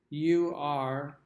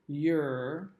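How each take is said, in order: First: It is said as two full words. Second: It is said as one contracted syllable.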